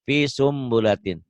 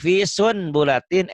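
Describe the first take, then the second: First: The n turns into an m sound before b. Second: The n sound is pronounced before the b.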